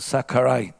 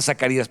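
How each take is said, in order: First: The name is said with an attempted English pronunciation. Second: The name is said with a Spanish pronunciation. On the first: "No sé cómo se dice en inglés... le estoy pronunciando mal" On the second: "para que tengo mi idioma"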